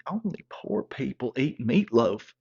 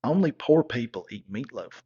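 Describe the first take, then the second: First: Slow disbelieving repeat, leaning on poor; slowed, offended echo of her line; incredulous echo. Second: Lightly voiced stuck-up girlfriend, falling; a hint of a snob looking down on meatloaf; mild snooty sneer. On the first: Retold or imitated. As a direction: throw her words back in disbelief. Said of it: "I'm like". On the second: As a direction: say it like it's obvious, a touch haughty. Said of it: "And she was like".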